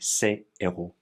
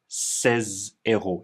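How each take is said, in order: First: No z sound links the two words. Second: The s is linked as a z sound. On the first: The speaker calls it right. "there's no liaison between this S and the H" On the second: The speaker calls it wrong. "but not ces héros"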